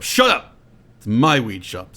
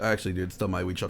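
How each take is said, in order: First: Mock angry yell. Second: Quick, soft, meek correction; timid mumble. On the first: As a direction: snap it like a spoiled tycoon. Bezos yells at shop clerk. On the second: Retold or imitated. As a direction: mumble it fast and small. Shop clerk timidly corrects Bezos.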